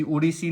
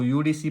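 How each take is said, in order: First: उड़ीसी begun with a plain "u", no y; misread as word. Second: यूडीसी begun with the letter name "yoo". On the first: Teacher shows students the wrong reading, उड़ीसी without the y glide. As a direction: say उड़ीसी as one word, "u-ree-see". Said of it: "उड़ीसी नहीं पढ़ेंगे इसको". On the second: Teacher corrects it for students, यूडीसी as three letter names. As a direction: say यूडीसी as yoo-dee-see. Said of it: "यूडीसी पढ़ेंगे". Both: Shown as a demonstration.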